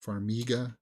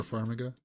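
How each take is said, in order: First: Farmiga with a long ee, far-MEE-guh; Farmiga as far-MEE-guh, middle syllable drawn out; corrected pronunciation. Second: Farmiga stressed on the first syllable, FAR-mi-ga; mistaken pronunciation. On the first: Shown as a demonstration. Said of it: "that's how they pronounce it". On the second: Real, not acted. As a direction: say Farmiga as FAR-muh-guh, weak middle syllable. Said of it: "Sorry, that's how they pronounce it".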